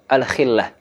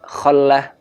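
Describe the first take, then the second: First: The first vowel is a close 'i'. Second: The first vowel is an open 'a'. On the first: Need together with poverty. "boleh dibaca al-khillah" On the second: A very great and urgent need. "Al-khallah bifathil kha"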